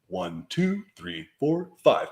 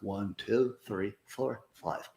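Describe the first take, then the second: First: The count is spoken with moderate projection. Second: The count is spoken weakly, with little projection. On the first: "And then you just sit up, and then you count again" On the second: "Slouch like you normally would, and then count to five"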